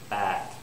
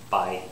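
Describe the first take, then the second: First: The vowel stays a steady ah with no y. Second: The vowel glides from ah into a y sound. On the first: The speaker calls it wrong. "they don't say the Y for this word... they'd say bat" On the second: The speaker calls it right. "an example of that word is bite"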